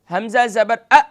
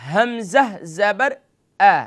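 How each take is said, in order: First: The final vowel is cut off abruptly. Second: The final vowel has a moderate, even length. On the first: The speaker calls it wrong. "इसे जल्दी से यानी झटका भी नहीं देना" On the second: The speaker calls it right. "सही तरीका"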